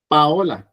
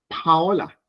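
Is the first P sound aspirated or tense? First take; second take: tense; aspirated. First: The first P is tense, without air. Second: The first P has a puff of air.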